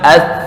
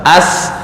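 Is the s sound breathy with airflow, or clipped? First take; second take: clipped; breathy. First: The s is clipped without breathy airflow. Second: The s is voiceless with audible breathy airflow. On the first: The speaker calls it wrong. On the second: The speaker calls it right. "sin itu harus hamas"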